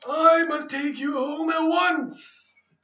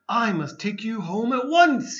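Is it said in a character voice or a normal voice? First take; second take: character voice; normal voice. First: It is said in a put-on character voice. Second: It is read in a plain narrating voice.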